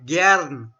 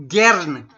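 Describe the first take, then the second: First: Gern with open e, like an A sound; Gern, open vowel held; pronunciation demo. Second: Gern with open German e; Gern, e sound stressed; pronunciation demo. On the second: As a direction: show the e in Gern clearly. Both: Shown as a demonstration. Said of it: "the E of German is".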